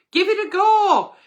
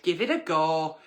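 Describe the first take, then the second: First: Higher and louder, upbeat; cheery encouragement. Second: Said in the usual way. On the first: Real, not acted. Agony aunt cheering on the nervous viewer, excited. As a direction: cheer her on. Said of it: "cheery encouragement". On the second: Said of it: "encouragement repeated".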